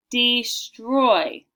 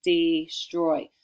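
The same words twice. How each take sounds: First: "destroy" loud, in two stretched syllables, dee-stroy; over-enunciate "destroy" as DEE, STROY; careful dictation. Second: Said in the usual way. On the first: Shown as a demonstration. Teacher dictating to pupils, careful and emphatic "destroy", syllables stretched. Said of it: "Listen again".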